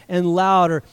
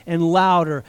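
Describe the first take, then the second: No difference in how they are said.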